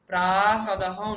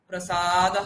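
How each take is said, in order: First: The first vowel is long, the second short. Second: The first vowel is short, the second long. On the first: "প্রাসাদহ নয়" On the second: "প্রসাদহ নয়"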